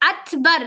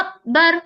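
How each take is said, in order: First: The k sound is released with audible breath. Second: The k sound is clipped with no breath. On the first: The letter is clear and distinct. The speaker calls it right. "तो वो खूबसूरती को क्लैरिटी करती है" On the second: The letter sounds unclear and could be confused. The speaker calls it wrong. "अगर आप काफ में हम्स नहीं करेंगे तो देखिए क्या सुनाई दे रहा है"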